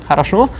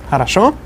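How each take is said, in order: Both takes have the same delivery.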